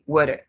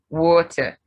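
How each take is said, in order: First: The word is said in an American accent. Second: The word is said in a non-American accent. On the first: The speaker calls it wrong. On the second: The speaker calls it right.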